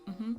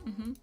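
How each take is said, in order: No difference in how they are said.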